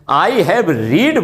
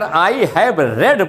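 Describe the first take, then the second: First: The word read rhymes with need. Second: The word read rhymes with bed. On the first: The speaker calls it wrong. "I have रीड बोल दिया तो वो गलत" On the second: The speaker calls it right. "अगर I have रेड बोल दिया तब तो ठीक है"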